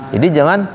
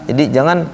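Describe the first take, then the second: Both takes have the same delivery.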